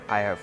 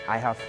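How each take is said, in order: Both takes have the same delivery.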